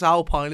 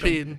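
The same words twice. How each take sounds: First: It is pronounced like an English word. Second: It is pronounced like a French word. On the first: "The way it's spelt in English" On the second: "but it is French, so it's"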